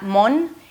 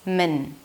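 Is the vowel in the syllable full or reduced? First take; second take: full; reduced. First: The syllable has a full 'o' vowel. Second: The syllable has a reduced schwa vowel. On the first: The speaker calls it wrong. "So it's not mon" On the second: The speaker calls it right. "it's min"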